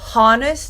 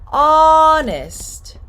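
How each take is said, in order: First: The word starts with an audible H sound. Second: The word starts with a vowel, no H. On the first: The speaker calls it wrong. "No, honest, no" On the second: The speaker calls it right. "Don't pronounce this H"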